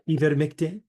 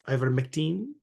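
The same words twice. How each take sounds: First: It is said with a French accent. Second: It is said with a Filipino accent. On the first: "We could do French" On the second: "We could do the Filipino ways"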